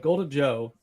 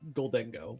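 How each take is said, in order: First: The last syllable starts with a 'j' sound. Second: The last syllable starts with a hard 'g' sound. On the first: The speaker calls it wrong. "that's not how you pronounce it" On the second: The speaker calls it right. "It's Goldengo"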